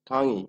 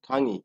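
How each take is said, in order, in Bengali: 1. শব্দটি 'i' স্বরধ্বনি দিয়ে শেষ হয়। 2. শব্দটি 'i' স্বরধ্বনি দিয়ে শেষ হয়।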